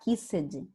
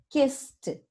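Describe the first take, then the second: First: The ending is pronounced as an extra syllable. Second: The word ends with a plain t sound. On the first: The speaker calls it wrong. "A gente não vai falar kissed" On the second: The speaker calls it right. "kiss, t, kissed"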